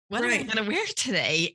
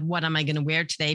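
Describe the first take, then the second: First: It sounds eager and delighted. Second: It sounds frustrated and desperate. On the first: Choosing an outfit is a pleasure. "I'm hearing excitement in your voice of, ooh" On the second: Nothing fits and the outfit won't work. "it's like you're pulling your hair out. Oh my God"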